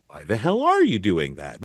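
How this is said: It is said in a curious, wondering tone.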